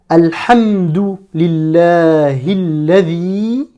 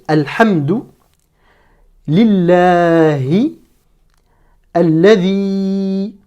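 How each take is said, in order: First: The words run together with the linking sounds. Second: Each word is read separately, one at a time. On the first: "j'ai fait une première liaison à ce niveau-là" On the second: "je vais lire mot à mot"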